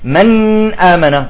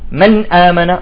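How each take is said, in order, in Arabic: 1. صوت النون يُمدّ زمنًا أطول. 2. صوت النون قصير، وننتقل مباشرة إلى ما بعده. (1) "يعني بيعطيها زمن" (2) "مباشرة"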